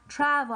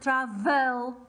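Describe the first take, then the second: First: The stress is on the first syllable. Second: The stress is on the second syllable. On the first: The speaker calls it right. "if it's not stressed, like travel" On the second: The speaker calls it wrong. "I'm not saying, for example, travel"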